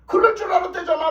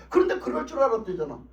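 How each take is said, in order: First: Mocking astonished repeat; laughing disbelief. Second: Said in the usual way. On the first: Real, not acted. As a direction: repeat "그럴 줄 알았대잖아" incredulous and amused. Repeats phrase, second more emphatic.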